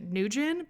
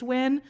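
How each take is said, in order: First: The name is said like the English name Nugent. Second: The name is said in a more Vietnamese-like way. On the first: This is how one person with the name said it. "pronounced it Nugent, but I know that's not typical" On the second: This is the more typical Vietnamese pronunciation. "so I think it's Nguyen"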